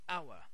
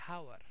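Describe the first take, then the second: First: The word begins with a vowel sound, no 'h'. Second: The word begins with an audible 'h' sound. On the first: The speaker calls it right. "We say hour" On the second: The speaker calls it wrong. "here we don't say hour"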